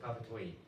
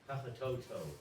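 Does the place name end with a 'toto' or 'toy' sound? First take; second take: toy; toto. First: The name ends with a 'toy' sound. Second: The name ends with a 'toto' sound. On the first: This is how locals actually say it. The speaker calls it right. "they call it Papatoi" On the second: This is how an English reader would guess it. The speaker calls it wrong. "This is from an English pronunciation. If you're teaching English, you, you think it would say Papatoto"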